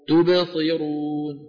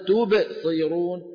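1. تمضي الكلمة متصلة دون فجوة. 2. توجد فجوة قصيرة بعد المقطع الأول. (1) "تبصي على طول" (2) "هذه الفجوة لا داعي لها"

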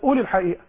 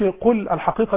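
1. يُنطق القاف همزةً. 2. يُنطق القاف قافاً كاملاً. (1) "عندنا مثلا في مصر نحن ننطق القاف همزة" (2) "ما أقولكش"

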